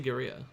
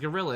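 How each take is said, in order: First: The double L is said as a Y sound. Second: The double L is said as an L sound. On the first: The speaker calls it right. "I'm gonna say guerrilla" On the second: The speaker calls it wrong. "why the fuck do we pronounce it as gorilla in English?"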